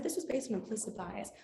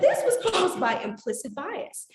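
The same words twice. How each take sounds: First: Said in the usual way. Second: "This was caused by implicit bias" higher, louder and slow, each word weighted; emphatic statement. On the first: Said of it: "And so I said". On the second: Retold or imitated. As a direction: press every word of "implicit bias" slowly and loudly. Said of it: "I said".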